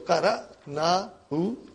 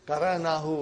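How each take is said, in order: First: It is said slowly, broken into separate parts. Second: It is said smoothly at normal speed as one word. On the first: "I'm only saying it slowly and breaking it down for you to understand" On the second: "this is not the way we will talk"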